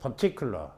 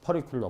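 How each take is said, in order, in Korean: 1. 가운데 t는 선명하고 또렷한 t입니다. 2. 가운데 t는 부드러운 r 같은 플랩입니다. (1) "트가 들어가는 음절 위에 강세가 십자견 그냥 트야 트" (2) "큰일 납니다. 퍼리큘러"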